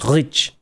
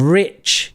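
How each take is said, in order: First: The r is a throaty French r sound. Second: The r is a plain English r sound. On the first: "you'd say rich, That's the French, that's French English" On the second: "instead of rich"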